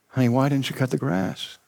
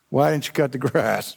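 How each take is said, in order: First: It sounds like a sincere, genuine question. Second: It sounds like an angry, blaming accusation.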